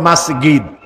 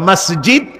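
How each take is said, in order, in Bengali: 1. মাঝের ব্যঞ্জনটি একটি g ধ্বনি। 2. মাঝের ব্যঞ্জনটি একটি j ধ্বনি। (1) "এটাকে বলে মাসগিদ" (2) "মিশরে জিমকে বলে গাইন দিয়ে"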